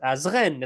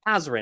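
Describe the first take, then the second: First: The stress is on the last syllable. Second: The stress is on the first syllable. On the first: "It's the end that's that's it's emphasized" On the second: "It's loud at the beginning"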